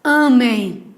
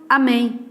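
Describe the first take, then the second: First: Amem as Á-mem, first syllable loud and drawn out; stress on first syllable. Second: Amém as a-MÉM, final syllable stressed; stress on last syllable. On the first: Teacher showing the verb Amem, stressed Á-mem. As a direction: stretch and punch the A of Amem. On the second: Teacher contrasting it with the verb, amém stressed a-MÉM. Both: Shown as a demonstration. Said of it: "Então a palavra".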